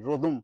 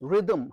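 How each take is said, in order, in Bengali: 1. প্রথম স্বরধ্বনিটি 'rod' শব্দের 'o' এর মতো শোনায়। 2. প্রথম স্বরধ্বনিটি 'rid' শব্দের 'i' এর মতো শোনায়। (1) "ভয়ঙ্কর ইংরেজি উচ্চারণ।"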